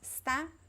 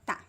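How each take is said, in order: First: The word is pronounced with both syllables. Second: The first syllable is dropped entirely. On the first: "you could say está or tá" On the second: "drop the first two letters, the es"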